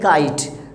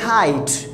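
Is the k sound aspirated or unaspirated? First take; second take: unaspirated; aspirated. First: The k is said without a puff of air. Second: The k is said with a strong puff of air. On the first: The speaker calls it wrong. "हम लोग यूं ही पढ़ते हैं India में" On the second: The speaker calls it right. "यानी वो बोलते हैं खाइट"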